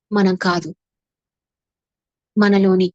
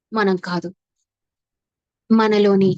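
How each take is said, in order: Both takes have the same delivery.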